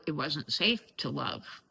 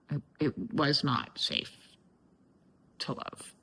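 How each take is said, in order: First: Said in the usual way. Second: "was not safe" separated out, then a long pause; weighted restatement. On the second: Real, not acted. Speaker restating that love was unsafe when little, halting and fading. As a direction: let "to love" fade to a near whisper. Repeats it uncontracted, pausing, fading out.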